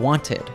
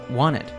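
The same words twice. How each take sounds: First: The T sound after the N is pronounced. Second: The T sound after the N is dropped.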